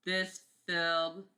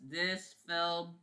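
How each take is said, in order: Both takes have the same delivery.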